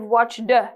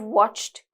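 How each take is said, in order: First: The ending is pronounced as a 'd' sound. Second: The ending is pronounced as a 't' sound. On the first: The speaker calls it wrong. "So you don't say yes, I've watched" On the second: The speaker calls it right. "So it's like watched. It's like the t sound"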